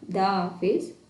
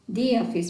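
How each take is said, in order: First: The word 'the' sounds like 'thuh'. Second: The word 'the' sounds like 'thee'. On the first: The speaker calls it wrong. "not the office" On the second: The speaker calls it right. "whenever you find vowels, so before the article we say we pronounce the"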